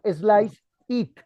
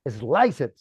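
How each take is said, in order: First: The two words are said separately, not linked. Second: The two words are linked into one unit. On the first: The speaker calls it wrong. "No slice it. Eso nadie lo dice" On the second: The speaker calls it right. "Always linking the word. Se une"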